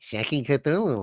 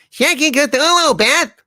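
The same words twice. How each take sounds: First: Hushed exclamation. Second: High, loud comic outburst; shouted exclamation. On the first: Same exclamation low, then shouted. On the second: Comic character cries out to Beth, high shout. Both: Acted.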